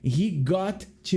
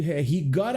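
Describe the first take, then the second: First: Got and to are said as separate words. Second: Got and to run together as gotta.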